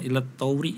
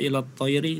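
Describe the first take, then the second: First: The second word is rushed, its sounds blurred. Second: The second word is pronounced clearly and distinctly. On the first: The speaker calls it wrong. "tadi saya mendengarnya ilat tauri jadinya ya. Jadi karena terlalu cepat dan mepet jadi hurufnya kurang jelas" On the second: The speaker calls it right. "harusnya dibaca ilat toiri"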